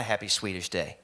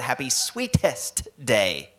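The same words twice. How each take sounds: First: Said in the usual way. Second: "Sweetest" slow and loud, with a crisp t in the middle; distinct pronunciation. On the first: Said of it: "I thought that's what he said". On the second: Shown as a demonstration. Correcting the misheard holiday name, "Sweetest" pronounced slowly and distinctly. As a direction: spell out "Sweetest" by ear, drawn out and forceful. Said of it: "There is a distinction".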